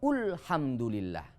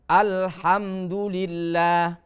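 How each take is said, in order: First: The word begins with the vowel u. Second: The word begins with the vowel a. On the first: The speaker calls it wrong. "Tidak boleh" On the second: The speaker calls it right. "setiap kalimat al pasti hamzahnya dengan fathah"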